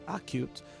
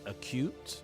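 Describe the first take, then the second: First: The stress is on the first syllable. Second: The stress is on the second syllable. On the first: The speaker calls it wrong. "not acute" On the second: The speaker calls it right. "It's it's on the second syllable"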